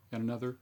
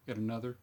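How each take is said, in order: Both takes have the same delivery.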